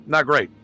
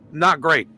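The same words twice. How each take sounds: The two takes are said the same way.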